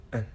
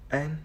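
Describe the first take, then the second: First: "n" as "and" shrunk to a brief schwa and n; reduced weak form. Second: Said in the usual way. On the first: Shown as a demonstration. Learner presenting how "and" reduces, weak form. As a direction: shrink "and" to a tiny "un". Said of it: "often convert to the a sound". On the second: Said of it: "the vowel sound in the word often convert".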